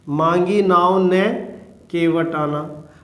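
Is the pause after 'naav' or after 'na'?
after na. There is a pause after na.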